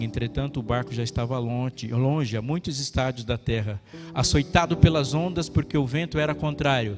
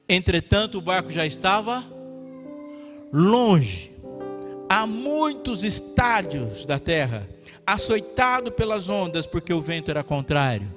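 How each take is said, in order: First: It is read at a normal pace. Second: It is read slowly.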